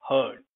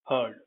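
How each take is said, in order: The two takes are said the same way.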